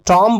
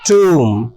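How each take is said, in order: First: Short o vowel with the final b silent. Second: Long oo vowel with the final b silent. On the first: The speaker calls it wrong. "कॉम की तरह से टॉम पढ़ा जाए? नहीं" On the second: The speaker calls it right. "बल्कि इसको पढ़ा जाना चाहिए टूम"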